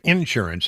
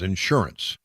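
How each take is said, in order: First: The stress is on the first syllable. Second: The stress is on the second syllable. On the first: "if you say insurance, I can tell you right now you're from Texas" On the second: "the correct pronunciation is insurance"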